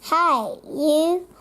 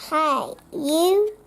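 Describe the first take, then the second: No difference in how they are said.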